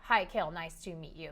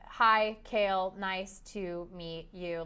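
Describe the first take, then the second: First: It is said very fast. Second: It is said slowly, word by word.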